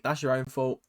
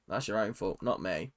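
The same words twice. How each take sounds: First: Said in the usual way. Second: "that's your own fault" dropped low and soft; quiet aside. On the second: Real, not acted. Vlogger mutters to fans copying her, quietly, dropping "that's your own fault" low. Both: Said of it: "repeated quieter".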